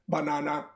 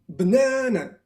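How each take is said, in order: First: All three syllables carry the same stress. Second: The middle syllable is stressed; the others are weak. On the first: The speaker calls it wrong. "they will say like this, banana, banana. Everything has the same accent" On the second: The speaker calls it right. "usually you have one syllable that has a lot of accent. Here is the n. And I say banana"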